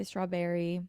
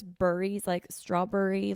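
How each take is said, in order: First: Said in the usual way. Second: Philly BURRIES, berry rhymed with hurry; dad's Philly accent. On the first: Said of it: "like, I say strawberry". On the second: Retold or imitated. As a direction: imitate a Philly dad saying strawberry as straw-burry. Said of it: "my dad says burries".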